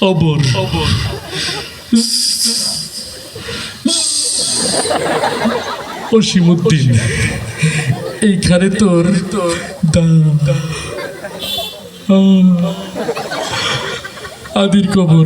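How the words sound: The words come out with stutters and hesitations. The reciter struggles to get words out. "একটু তোতলা টাইপের, কথা বেরোতে সময় লাগে"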